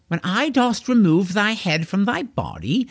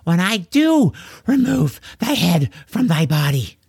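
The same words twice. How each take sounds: First: "When I dost remove" with "dost" kept plain inside the knightly line; stress on dost. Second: "do" in "when I do remove" said clearly with weight; stress on do. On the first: Corwin threatening George, "dost" unstressed. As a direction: say "I dost" smoothly, no weight on "dost". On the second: Gasping George correcting Corwin's grammar, stressing "do". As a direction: correct him by leaning on "do". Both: Acted. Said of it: "Not dost".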